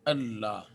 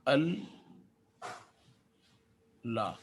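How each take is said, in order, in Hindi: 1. दोनों हिस्से एक दोहरे l से जुड़े हैं। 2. दोनों हिस्से अलग हैं, हर एक में एक l है। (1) "लिखने में ये यूँ है" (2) "अगर मैं इस तशदीद को खोल दूँ तो"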